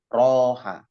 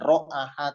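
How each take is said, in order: First: The word has two syllables without a middle vowel. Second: The word has three syllables with a middle vowel. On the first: The speaker calls it right. "tapi roha" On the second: The speaker calls it wrong. "Bukan ro'aha"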